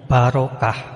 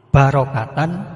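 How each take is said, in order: First: The word ends with a stopped h sound. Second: The word ends with a short -tan sound. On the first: The reading stops at this word. "kalau dibaca berhenti atau wakof itu fathah tanwinnya menjadi hilang. Ucapannya menjadi seperti hak mati" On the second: The reading continues without stopping. "kalau dibaca berlanjut tetap dibaca pendek"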